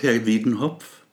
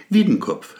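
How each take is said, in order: First: Wiedenhopf, mispronounced with an h sound; doctor gets the name wrong: Wiedenhopf. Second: Wiedenkopf with a hard k, said higher and louder; patient corrects doctor: Wiedenkopf, sharp and insistent; correcting the name. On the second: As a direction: stress the k in Wiedenkopf to correct him. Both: Acted. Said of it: "Wiedenkopf, Herr Doktor".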